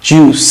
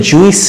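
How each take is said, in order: First: "জুস" as one syllable, long u; correct pronunciation. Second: "জুইস" split into two vowels, ju-is; wrong pronunciation. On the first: Teacher models the word for learners, "জুস" in one syllable. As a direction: say "জুস" with no i before the s. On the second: Teacher shows learners the mistake, mispronounced "জুইস" as ju-is. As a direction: say "জুইস" with an extra i after the u. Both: Shown as a demonstration. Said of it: "এটা কিন্তু জুইস না".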